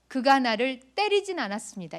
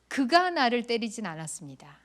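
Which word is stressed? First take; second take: 때리진; 그가. First: The third word carries the stress. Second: The first word carries the stress. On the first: It was only a touch, not a hit. "이 말은 때리진 않았고 그냥 손을 댔다는 뜻일 수 있어요" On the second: Someone else did the hitting. "이 말은 다른 사람이 나를 때렸다는 뜻이에요"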